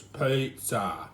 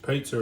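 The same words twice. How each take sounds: First: "pizza" drawn out slowly in broad Aussie; Aussie pronunciation. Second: Said in the usual way. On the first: Shown as a demonstration. Home cook correcting how to say it, "pizza" slow and broad Australian. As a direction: stretch the first vowel of "pizza", Aussie style. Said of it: "it's pizza". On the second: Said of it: "It's not pronounced pizza".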